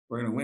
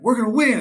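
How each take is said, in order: First: It sounds flat and unconvinced. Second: It sounds firm and convinced.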